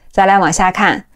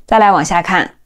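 No difference in how they are said.

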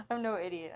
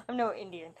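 First: Said in the usual way. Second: Laughing at the misread "I'm no Indian"; amused repeat of "I'm no Indian". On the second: Shown as a demonstration. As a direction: chuckle through "Indian" as a joke misreading.

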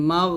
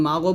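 First: "মাগ" ending on a held, heavy gh; heavy ghain. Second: "মাগো" with a bounced vowel after the gh; mistaken qalqalah. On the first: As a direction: close "মাগ" on a thick gh, no bounce. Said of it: "মোটা উচ্চারণ করতে হবে". (মোটা গন, কলকলা ছাড়া "মাগ") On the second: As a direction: add an extra o to make "মাগো". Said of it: "মাগো বলা যাবে না". (ভুল কলকলায় "মাগো" উচ্চারণ) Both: Shown as a demonstration.

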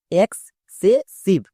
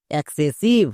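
First: excessive broken into syllables, very slow. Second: Said in the usual way. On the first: Shown as a demonstration. Teacher splitting excessive very slowly for students. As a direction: draw out each part of excessive. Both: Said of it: "এবার একসঙ্গে উচ্চারণ করো".

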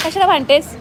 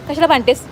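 Both takes have the same delivery.

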